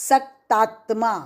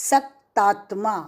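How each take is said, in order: The two takes are said the same way.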